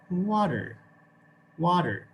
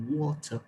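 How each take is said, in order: First: Water with a clear American R at the end; American English water. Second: Water with the R dropped, British style; British English water. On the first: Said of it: "how the Americans actually say it". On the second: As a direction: say water like a Brit, no R at the end. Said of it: "This is how the British people say this word". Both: Shown as a demonstration.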